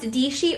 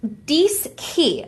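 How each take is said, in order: First: The middle consonant is a soft sh sound. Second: The middle consonants are an sk sound. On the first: The speaker calls it wrong. "it looks like it's pronounced Dishi" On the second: The speaker calls it right. "but it's actually pronounced Diski"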